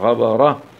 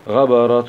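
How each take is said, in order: First: The word stops on a soft breathy h sound. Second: The ending carries a hidden nasal n sound. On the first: The reciter pauses on this word. "نقف عليها بالسكون العارض مع همس الهاء" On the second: The word is joined to the next word. "تاء ضمتي مع الإخفاء الحقيقي في حالة الوصلة"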